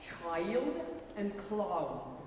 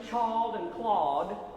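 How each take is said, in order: First: The vowels glide fully through both vowel sounds. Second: The vowels are clipped without the second vowel sound. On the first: The speaker calls it right. "we've got to get both both vowel sounds in there" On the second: The speaker calls it wrong. "rather than child and cloud"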